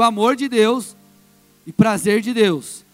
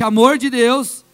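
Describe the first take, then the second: First: It is said at normal, softer volume. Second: It is said louder and more forcefully.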